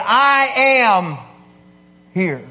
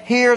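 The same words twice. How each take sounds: First: "I am here" said loud and firm, landing on "am"; declarative I am here. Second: Said in the usual way. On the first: Shown as a demonstration. Preacher showing a roll call answer, declarative "I am here". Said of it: "It's a very declarative thing". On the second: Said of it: "that's one thing".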